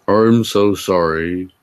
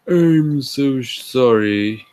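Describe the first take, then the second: First: It is said in an ordinary, plain voice. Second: It is said in a timid, shy voice. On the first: The speaker calls it wrong. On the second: The speaker calls it right.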